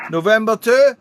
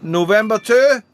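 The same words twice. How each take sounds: The two takes are said the same way.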